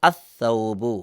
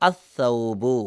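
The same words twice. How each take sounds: The two takes are said the same way.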